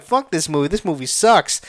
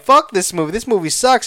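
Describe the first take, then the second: First: Offhand, unimpressed put-down; dismissive. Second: Louder, worked-up mock complaint; overwhelmed, moved. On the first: Retold or imitated. Viewer panning a movie before being moved by it, dismissive. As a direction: write it off in a level voice. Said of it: "Before, when I said". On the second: Viewer cursing the movie that made them cry, worked up. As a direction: curse it because it got to you. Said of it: "Now I'm like".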